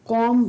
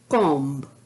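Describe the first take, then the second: First: It ends with m and no b sound. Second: It ends with an audible b sound. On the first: The speaker calls it right. "कॉम बोला जाता है" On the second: The speaker calls it wrong. "ना कि कॉम्ब"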